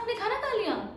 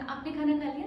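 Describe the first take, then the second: First: It is asked in a shocked, accusing tone. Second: It is asked as a casual, polite question.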